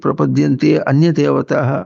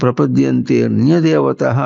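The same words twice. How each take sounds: First: The words are split and the 'a' is pronounced. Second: The words are joined and the 'a' is dropped. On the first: "మీరు విడదీసి" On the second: "ఆ పలకుండా చెప్పని చెప్పాం. ఇక్కడ కూడా"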